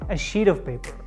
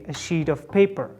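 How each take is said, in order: First: The word 'of' shrinks to a tiny v sound. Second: The word 'of' is said fully and clearly. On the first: The speaker calls it right. "there's a very tiny V sound" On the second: The speaker calls it wrong. "non-native speakers say a sheet of paper"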